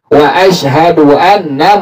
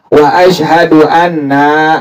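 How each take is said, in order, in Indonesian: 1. Vokal dalam frasa itu dibaca pendek. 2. Vokal dalam frasa itu dibaca panjang. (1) "tapi pendek" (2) "Nggak dipanjangin ya. Nggak dibaca"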